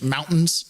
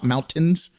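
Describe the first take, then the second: First: The middle T sound is dropped. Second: The middle T sound is clearly pronounced.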